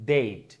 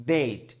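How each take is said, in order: Both takes have the same delivery.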